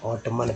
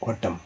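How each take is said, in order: First: The word ends with an n sound after m. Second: The word ends in m with no n sound. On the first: The speaker calls it wrong. "बहुत सारे लोग ऑटमन पढ़ते हैं, जो गलत है" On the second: The speaker calls it right. "ऑटम, क्योंकि N के पहले एम है"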